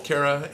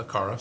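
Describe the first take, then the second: First: Kara said the wrong way, first vowel as in care; mispronounced name. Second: Kara with an open "ah", KAH-ra; corrected pronunciation. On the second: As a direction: say Kara with first vowel as in car. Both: Real, not acted. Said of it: "said that wrong".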